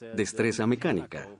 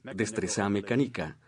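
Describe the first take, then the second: First: The stress falls on the usual syllables. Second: The stress falls on unexpected syllables. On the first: Listeners recognize the words. The speaker calls it right. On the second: Listeners cannot recognize the words. The speaker calls it wrong.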